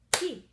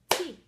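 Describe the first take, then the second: First: Tea said very loud as one clapped beat; clapped syllable. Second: Said in the usual way. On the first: Shown as a demonstration. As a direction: punch Tea out as a single beat. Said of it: "Let's try to clap again". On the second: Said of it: "Let's try it again".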